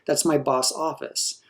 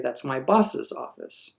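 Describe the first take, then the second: First: The possessive boss has one syllable. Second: The possessive boss has two syllables. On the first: The speaker calls it wrong. "We would never say" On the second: The speaker calls it right. "You would say"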